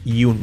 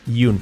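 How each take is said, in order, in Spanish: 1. La palabra empieza con un sonido y. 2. La palabra empieza con un sonido y.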